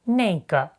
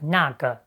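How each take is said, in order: First: It is said with the northern colloquial pronunciation. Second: It is said with the standard pronunciation.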